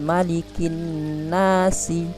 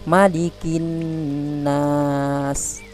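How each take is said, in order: First: The last word ends with a short vowel. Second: The last word ends on a stopped consonant. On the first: The speaker calls it wrong. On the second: The speaker calls it right. "tapi menjadi"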